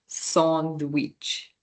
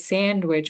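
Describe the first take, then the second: First: The first vowel is an open ah sound. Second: The first vowel is not an ah sound. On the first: "it's pronounced sandwich. ... that's an ah sound" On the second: "in English we say sandwich"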